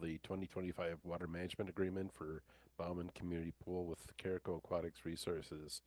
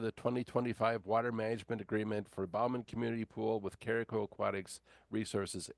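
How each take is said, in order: First: It is spoken quietly and is hard to hear. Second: It is spoken loudly in a firm commanding voice. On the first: The speaker calls it wrong. "it's pretty hard for you for me to hear you" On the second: The speaker calls it right. "a command voice"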